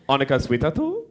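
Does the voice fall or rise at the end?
rise. The pitch rises at the end. It asks whether the other person is hungry. "Are you hungry?"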